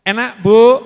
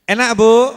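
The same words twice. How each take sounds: The two takes are said the same way.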